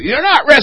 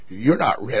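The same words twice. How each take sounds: First: Higher, quick-fire rebuff; acted back-and-forth insistence; insistent refusal. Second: Low, soft rebuff; low and understated doubt; quiet refusal. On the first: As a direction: raise the pitch to insist. Refusal repeated in heated acted exchange. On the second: Acted. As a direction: turn him down in a low, subdued voice. Preacher's first refusal in acted exchange.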